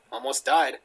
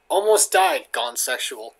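First: Said in the usual way. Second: Louder hype on the first words; mock clickbait title. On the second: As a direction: parody a sensational video title.

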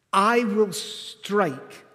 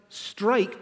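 First: "I will strike" very slow, with I leaned on; stress on I. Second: Said in the usual way. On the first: Shown as a demonstration. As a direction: draw out "I will strike" slowly, pushing the I. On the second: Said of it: "he changes it from".

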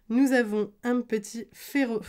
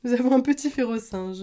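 First: Slipping into a southern French accent; real, unplanned lilt of southern France. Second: Said in the usual way. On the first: Real, not acted. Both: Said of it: "je recommence à faire mon accent du sud".

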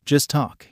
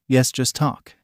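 First: Skeptical question. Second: Said in the usual way. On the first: A narrator's reading. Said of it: "Ko asked skeptically".

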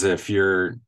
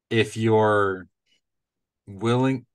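First: Said in the usual way. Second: "you're" in a Midwestern accent, like "yor". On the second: Real, not acted. Podcaster owning up to the accent, Midwestern "you're". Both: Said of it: "in my Midwestern accent".

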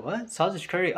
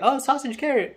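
First: Mildly puzzled questioning, imitating kids. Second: Higher-pitched "oh, I get it"; dawning realization. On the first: Kids hearing an unexpected food example, puzzled. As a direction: echo it as a baffled question. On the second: Retold or imitated. Kids recognizing the teacher's example, sudden realization. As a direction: imitate kids suddenly catching on. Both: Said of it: "the kids are like".

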